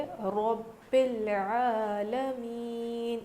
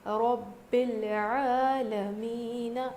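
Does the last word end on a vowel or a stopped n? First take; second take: stopped n; vowel. First: The final n is stopped, then breath pauses. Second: The final n carries a vowel and flows on. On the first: The speaker calls it right. "इस पर जज़म देना है और फिर यहाँ पर रुक जाना है, सांस तोड़ना है" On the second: The speaker calls it wrong. "इस तरह से नहीं पढ़ेंगे"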